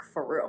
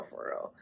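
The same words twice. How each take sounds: First: Said in the usual way. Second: Whispered echo. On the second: Retold or imitated. Whispered repeat of phrase.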